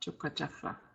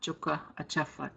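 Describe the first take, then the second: First: One merged word, with the second A dropped. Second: Two separate parts, with the second A sounded. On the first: "in pronunciation, you don't hear the A in Achafa" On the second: "it's going to be spelled with the first A in Achafa"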